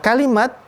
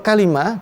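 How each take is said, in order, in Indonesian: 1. Kata itu berakhir dengan bunyi t. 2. Kata itu berakhir dengan bunyi h. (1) "ujungnya memakai tak marbutah yang dibaca terus" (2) "berhenti pada ujung menjadi kalimah"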